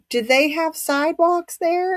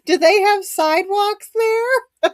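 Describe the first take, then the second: First: It is said in the speaker's plain voice. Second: It is said in a New York accent.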